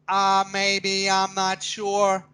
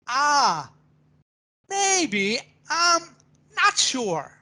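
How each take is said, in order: First: It is said flatly, like a robot. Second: It is said with varied, lively expression. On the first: The speaker calls it wrong. "as a robot" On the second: The speaker calls it right. "to make it exciting and make it emotional"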